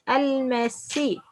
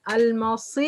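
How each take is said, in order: First: The s sound is light and thin. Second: The s sound is heavy and full. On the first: The speaker calls it wrong. "When we pronounce this صاد as a light" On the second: The speaker calls it right. "the basic fact on صاد letter is"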